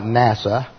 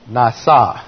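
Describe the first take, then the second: First: It is said like the English acronym NASA. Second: It is said with the Hebrew pronunciation. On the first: The speaker calls it wrong. "It's not NASA" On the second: The speaker calls it right. "That is nasa"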